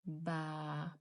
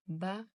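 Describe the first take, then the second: First: Ba with the a held long; long vowel baa with alif. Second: Ba with a short clipped a; short fatha on ba. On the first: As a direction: stretch the a in ba. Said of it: "Long sound". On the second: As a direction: say ba quickly, short vowel. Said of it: "Short sound". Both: Shown as a demonstration.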